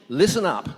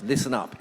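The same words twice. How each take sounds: First: Sharp, loud "Listen up"; sponsor's order. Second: Put-on mild New York accent on "Listen up"; a touch of New York Italian sponsor; strong New York accent. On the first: Retold or imitated. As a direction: bark it like a command. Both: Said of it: "in a strong New York accent".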